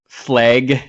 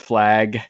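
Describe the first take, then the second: First: The word is said with a Northwest accent. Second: The word is said with a standard accent. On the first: The speaker calls it wrong. "we say incorrectly, like we say uh, flag" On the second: The speaker calls it right. "instead of"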